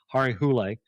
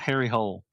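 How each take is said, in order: First: The name is said with a non-English pronunciation. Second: The name is said with an English pronunciation. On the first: The speaker calls it right. "I'm going to pronounce that right" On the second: The speaker calls it wrong. "Not Harry Hole"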